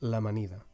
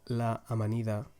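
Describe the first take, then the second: First: The two vowel sounds merge into one syllable. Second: Both vowels are pronounced separately, with a break. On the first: The speaker calls it right. "because you are linking the two vowel sounds together" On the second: The speaker calls it wrong. "instead of saying la amanida"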